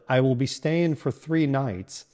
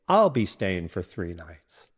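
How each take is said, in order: First: The words I will are said in full. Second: The words I will are contracted to I'll. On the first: The speaker calls it wrong. "instead of" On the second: The speaker calls it right.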